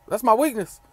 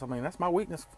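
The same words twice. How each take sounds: First: "my" punched higher and louder; stress on my. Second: Said in the usual way. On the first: Real, not acted. Trucker repeats it to viewers, "my" stressed loud. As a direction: lean hard on "my" in "That's my weakness.".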